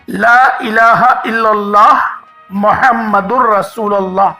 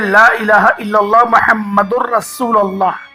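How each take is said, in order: First: It is said with a breath pause. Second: It is said in one breath.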